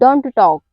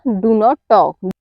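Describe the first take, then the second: First: It is contracted to one syllable, don't. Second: It is said in full as two syllables. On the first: "डू नॉट को हम डोंट पढ़ते हैं" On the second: "या डू नॉट talk"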